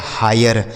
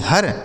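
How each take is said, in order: First: हायर with an 'aay' glide before r; correct pronunciation हायर. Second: हर as one syllable, like 'her'; mispronounced हर. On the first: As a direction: say हायर with i opened to aay. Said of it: "इसे पढ़ा जाएगा". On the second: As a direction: say हर wrongly, short uh before r. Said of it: "ऐसे नहीं पढ़ा जाएगा". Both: Shown as a demonstration.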